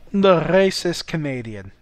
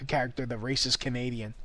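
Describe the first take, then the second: First: Naming a character. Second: Said in the usual way. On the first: Shown as a demonstration. Naming his planned character, a louder announcement. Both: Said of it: "I'll have to develop that character".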